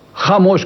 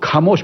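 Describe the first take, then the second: First: The first sound is a throaty fricative. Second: The first sound is a plain aspirated k. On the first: The speaker calls it right. "खामोश को खामोश बोलता है" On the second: The speaker calls it wrong. "खामोश को खामोश बोलता है"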